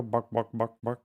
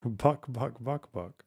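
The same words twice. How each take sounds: First: "buck, buck, buck" as a chicken cluck. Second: "Buck, buck" clucked, trailing off softer; fading cluck. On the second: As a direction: cluck "buck" and let it die away. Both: Shown as a demonstration. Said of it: "No, they go".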